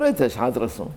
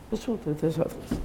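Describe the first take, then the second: First: Said in the usual way. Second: Higher, much softer frail echo; old rabbi's reply. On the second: Retold or imitated. Preacher imitating the elderly rabbi's modest answer, frail. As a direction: murmur it like a frail old sage.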